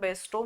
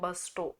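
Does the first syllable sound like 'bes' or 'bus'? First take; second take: bes; bus. First: The first syllable sounds like 'bes'. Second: The first syllable sounds like 'bus'. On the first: The speaker calls it wrong. "आपण बेस्टो म्हणू याला" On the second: The speaker calls it right. "याचं pronunciation बस्टो असं होतं"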